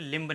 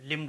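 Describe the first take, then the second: First: लिम्ब said as "limb-uh" with B; final B pronounced. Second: लिम्ब said as "lim"; silent B. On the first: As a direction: say लिम्ब, releasing B after M. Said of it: "लिम्ब नहीं कहेंगे". (लिम्ब के अंत में ब बोलकर) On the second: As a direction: say लिम्ब ending on M, no B. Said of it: "बी silent है इसलिए". (लिम्ब को "लिम" बोलें, ब मौन) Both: Shown as a demonstration.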